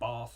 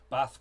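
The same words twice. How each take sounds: First: It is said in a southern English accent. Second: It is said in a northern English accent. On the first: This is how the speaker used to say it. "I don't say bath anymore" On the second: This is how the speaker says it now, like the locals. "It's all bath"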